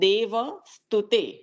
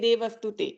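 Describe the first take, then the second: First: The syllable va is grouped with dev. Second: The syllable va is grouped with stute. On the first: The speaker calls it right. "અલા પણ શિવ વિરમચી દેવ સ્તુતે" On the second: The speaker calls it wrong. "દે જુદું પડે ને વસ્તુતે જુદું પડે"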